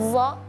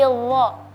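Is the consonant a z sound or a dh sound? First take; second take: z; dh. First: The consonant is a buzzing z sound. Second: The consonant is a dh sound, tongue between teeth. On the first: The speaker calls it wrong. "jangan za" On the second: The speaker calls it right. "tapi dha"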